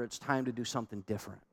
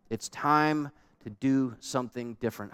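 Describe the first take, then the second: First: Quick, much softer, "different" almost dropped; hushed quick aside. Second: Said in the usual way. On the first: Shown as a demonstration. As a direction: tuck it in softly and fast, almost under the breath.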